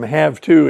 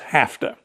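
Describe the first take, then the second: First: The word have ends with a V sound. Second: The word have ends with an F sound. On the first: "from have to" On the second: "They swap the V sound for an F sound"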